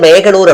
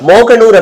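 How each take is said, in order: First: The first vowel is pronounced as a long e. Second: The first vowel is pronounced as a long o. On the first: The speaker calls it wrong. "மேகனூர் அப்படின்னு சொல்லிட்டு அவர் படிச்சாரு" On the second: The speaker calls it right. "மோகனூர் அப்படிங்கிறது"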